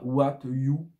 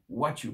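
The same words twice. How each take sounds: First: The two words are fully and separately pronounced. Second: The two words are reduced and run together. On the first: The speaker calls it wrong. "Pas what you. Non" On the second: The speaker calls it right. "donc on va le réduire"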